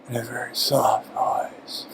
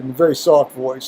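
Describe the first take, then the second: First: It is said very softly, almost mumbled. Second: It is said at a normal, clear loudness.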